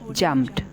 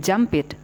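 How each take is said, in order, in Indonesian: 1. Akhiran itu hanya berupa bunyi konsonan di akhir kata. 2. Akhiran itu diucapkan sebagai suku kata tambahan. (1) "yang dibaca hanya d-nya saja" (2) "tidak menjadi jumped"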